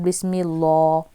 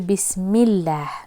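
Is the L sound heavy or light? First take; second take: heavy; light. First: The L sound is heavy and full. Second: The L sound is light and thin. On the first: The speaker calls it wrong. "not bismillah" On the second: The speaker calls it right. "you have got to read this lam lightly"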